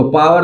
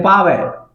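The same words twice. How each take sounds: First: पावर as straight 'paa-var'; 'paavar', spoken as written; Indian pronunciation. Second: पावर ending in open 've', no R; R-less British पावर; British pronunciation. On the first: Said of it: "पावर तो हम लोग बोलते हैं". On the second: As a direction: drop the R in पावर: 'paa-ve'. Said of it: "British लोग". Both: Shown as a demonstration.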